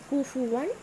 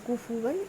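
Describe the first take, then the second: No difference in how they are said.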